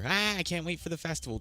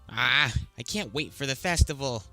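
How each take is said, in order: First: The line is said in a cheerful tone. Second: The line is said in a sour tone. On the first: The speaker calls it right. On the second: The speaker calls it wrong.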